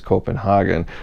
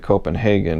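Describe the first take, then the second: First: It is said with a European pronunciation. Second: It is said with an American pronunciation. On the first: "in Europe it's Copenhagen" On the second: "we in America we say Copenhagen"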